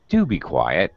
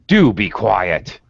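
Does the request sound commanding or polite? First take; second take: polite; commanding. First: It is said in a nice, polite tone. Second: It is said in a firm, commanding tone. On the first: It is a courteous request. "that's nice" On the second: It is a demand. "that's more of a command"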